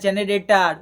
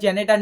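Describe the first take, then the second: First: The word has four syllables, 'jenarator'. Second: The word is clipped to three syllables, 'jenetar'. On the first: The speaker calls it right. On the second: The speaker calls it wrong. "এটা জেনেটার না"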